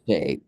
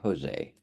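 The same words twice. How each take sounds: First: The name is said with a Portuguese pronunciation. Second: The name is said with a Spanish pronunciation. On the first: "But you got Jose" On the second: "we think we say Jose. And that's because we're we're adjacent to Mexico"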